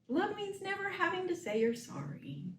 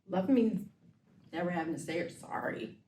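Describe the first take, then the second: First: The line is said in a happy tone. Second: The line is said in a jealous tone.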